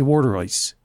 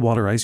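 First: It is said in a Philadelphia accent. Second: It is said in a general American accent.

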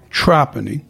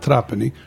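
First: The name is pronounced the local way. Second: The name is pronounced a non-local way. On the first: This is how people from the town say it. The speaker calls it right. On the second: This is how outsiders say it. The speaker calls it wrong.

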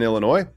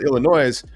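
First: The final S is silent. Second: The final S is sounded. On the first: The speaker sounds like a local. The speaker calls it right. "you don't pronounce the S" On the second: The speaker sounds like an outsider. The speaker calls it wrong. "we just think you're not from there"

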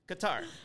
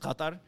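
First: The name is said with English sounds. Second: The name is said with Arabic sounds. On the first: This is how the name is said in English. "in English to me it would be like Qatar" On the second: This is how the name is said in its own language. "in like Arabic, the proper pronunciation is Qatar"

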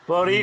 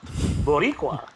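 First: It is said plainly, without attitude. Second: It is said with sass and attitude.

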